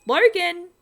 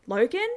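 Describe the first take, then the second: First: High, loud panicked shout; yelling down a dead phone line; shouting a name. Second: Worried question. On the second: Mother calling into phone. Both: A narrator's reading.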